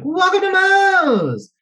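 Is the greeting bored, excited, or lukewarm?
excited. It is said with excited enthusiasm.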